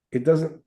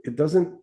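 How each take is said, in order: Both takes have the same delivery.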